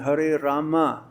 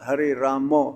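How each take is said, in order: First: The word Rama ends in an 'a' vowel. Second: The word Rama ends in an 'o' vowel. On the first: The speaker calls it right. "it should be Hare Rama" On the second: The speaker calls it wrong. "not Hare Ramo"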